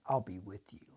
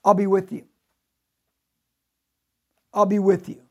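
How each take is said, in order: First: Quiet. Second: Emphatic repeat. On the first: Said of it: "inserted his word ... into Gideon's mind". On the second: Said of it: "what did he just tell Gideon". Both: Shown as a demonstration.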